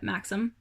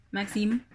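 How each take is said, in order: First: Said in the usual way. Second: French-accented name with a rising end; attempted French accent. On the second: Shown as a demonstration. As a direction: have a go at French pronunciation. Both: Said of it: "I'm trying to do the accent".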